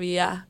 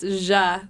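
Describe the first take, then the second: First: The word begins with a 'y' sound. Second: The word begins with a 'j'-like sound. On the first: This is how it is said elsewhere. "instead of ya" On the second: This is how Argentines say it. "It's ja instead of ya"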